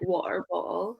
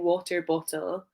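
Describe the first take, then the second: First: The T sounds are dropped. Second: The T sounds are clearly pronounced. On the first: "Some Scottish people wouldn't say their T's" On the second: "instead of saying"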